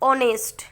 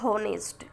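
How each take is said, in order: First: The word starts with a vowel, no h. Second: The word starts with an audible h sound. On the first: The speaker calls it right. "लेकिन ये silent है" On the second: The speaker calls it wrong. "Not होनेस्ट"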